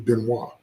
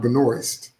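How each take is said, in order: First: The name is said the French way. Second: The name is said the American way. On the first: The speaker calls it right. "Her name is French. It's actually Benoit" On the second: The speaker calls it wrong. "That's how Americans say it"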